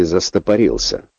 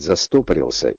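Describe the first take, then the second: First: Застопорился with the stress on РИ: застопорИлся. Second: Застопорился with the stress on СТО: застОпорился; stress on second O. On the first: Host offers listeners the other variant, застопорился stressed on РИ. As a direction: say застопорился leaning late, on "рил". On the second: Host asks listeners which is correct, застопорился stressed on СТО. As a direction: say застопорился leaning on "сто", the following syllables unstressed. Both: Shown as a demonstration. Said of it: "а как правильно говорить".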